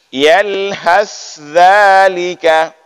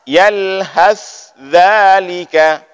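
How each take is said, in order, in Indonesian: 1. Bunyi th dan dh diucapkan terpisah. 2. Bunyi th dan dh diucapkan terpisah.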